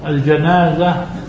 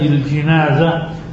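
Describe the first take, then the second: First: The first vowel is an open 'a'. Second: The first vowel is a front 'i'. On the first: It names the dead person on the bier. The speaker calls it wrong. "بالفتح" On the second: It names the bier carrying the dead person. The speaker calls it right. "وبالكسر أي الجنازة"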